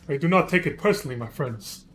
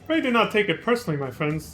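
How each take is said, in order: First: It imitates the character's Japanese voice actor. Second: It is said in his ordinary reading voice.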